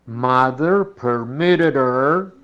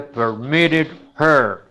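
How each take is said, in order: First: "permitted her" slow with a flapped t and h dropped; slow demo; reduced permitted her. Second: "permitted her" slow with the h; slow careful demo; full permitted her. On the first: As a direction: say it the American way. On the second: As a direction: say it word by word. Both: Shown as a demonstration. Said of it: "en lugar de".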